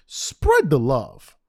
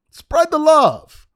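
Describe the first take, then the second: First: Very slow, stretched words; drawn-out plea. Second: Loud, high, drawn-out cry; emphatic plea. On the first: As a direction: stretch it out as an appeal. First take, drawn out. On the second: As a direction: belt it out slowly as an exasperated demand. Repeats it much louder, higher. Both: Real, not acted.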